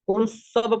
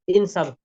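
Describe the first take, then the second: First: The word begins with a u vowel. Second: The word begins with an i vowel. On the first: The speaker calls it wrong. "अगर हम पेश लगाते हैं ना" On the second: The speaker calls it right. "बल्कि जेर लगाएंगे हम"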